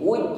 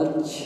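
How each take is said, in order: First: The j bounces with no puff of air. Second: The j bounces with an audible puff of air. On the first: The speaker calls it right. "tertahan aliran nafas ketika mengucapkan jim" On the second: The speaker calls it wrong. "bukan wuj ya"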